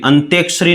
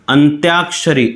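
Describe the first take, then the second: First: अंत्याक्षरी quickly, with the "yaa" squashed to "e"; wrong pronunciation. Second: अंत्याक्षरी with a clear long "yaa" after the t; correct pronunciation. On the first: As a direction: say अंत्याक्षरी as "ant-ek-shari". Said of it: "नहीं होता". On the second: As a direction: say अंत्याक्षरी as "ant-yaak-shari". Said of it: "अंत्याक्षरी नहीं होता". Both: Shown as a demonstration.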